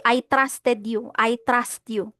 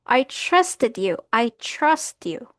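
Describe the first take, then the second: First: "trusted" and "trust" with hard T-R, as "trasted", "trast"; "trust" as "trast", without the chr onset; wrong TR sound. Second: "trusted" and "trust" slow, as "chrusted", "chrust"; "trust" drawn out with a CH-like TR; correct TR sound. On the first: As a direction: say "trust" with a plain Filipino T and R. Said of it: "Hindi, pangit". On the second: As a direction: slowly model "trust" with an American chr onset. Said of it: "Ito ay trust". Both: Shown as a demonstration.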